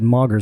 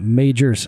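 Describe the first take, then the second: First: The name sounds like 'Moggers'. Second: The name sounds like 'Majors'. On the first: The speaker calls it wrong. "I almost said that wrong. I almost said Moggers" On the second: The speaker calls it right. "that's how you pronounce it"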